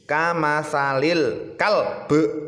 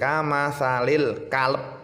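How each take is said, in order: First: The final b is released with an echoing bounce. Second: The final b stops flat with no bounce. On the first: The speaker calls it right. "harus dipantulkan ya, jangan nanggung-nanggung, harus mantul" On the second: The speaker calls it wrong. "Kalau kita membacanya kalb, maka tidak ada pantulan"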